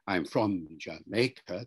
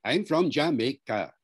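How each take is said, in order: First: Said in the usual way. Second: Jamaican English, every syllable punched evenly; Jamaican syllable-timed accent. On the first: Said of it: "somebody from Jamaica doesn't say". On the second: Shown as a demonstration. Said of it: "you know, rat-tat-tat-tat".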